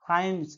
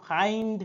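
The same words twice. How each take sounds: First: ফাইন্ডস with an audible S after the N; final S pronounced. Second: ফাইন্ড ending on N-D, no S; final S left off. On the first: Teacher shows the required ending, ফাইন্ডস with its S sounded. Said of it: "আনতে হবে উচ্চারণে". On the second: Teacher contrasts forms for class, ফাইন্ড with no final S. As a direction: say ফাইন্ড without any S at the end. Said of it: "উচ্চারণে এসটা আসা চাই। নাহলে". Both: Shown as a demonstration.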